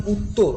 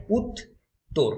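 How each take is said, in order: First: Said in the usual way. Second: "উত্তর" slowly broken into two syllables with a long gap; syllable split. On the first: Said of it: "এই কথাটাকে". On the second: Shown as a demonstration. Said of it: "syllable ভাগ করলে কি হবে".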